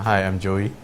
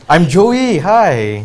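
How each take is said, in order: First: It is said flatly, without enthusiasm. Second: It is said with more enthusiasm.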